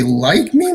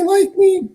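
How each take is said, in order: First: Said in the usual way. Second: Like me jumps much higher; stressed second like me, really like; emphatic repeat. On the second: Shown as a demonstration. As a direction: lift like me high to mean truly.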